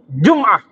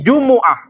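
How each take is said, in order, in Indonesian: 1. Huruf m tidak diikuti vokal. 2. Huruf m diikuti vokal u. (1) "dengan mensukun mim" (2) "mimnya di dhammah jadi Jumu'ah"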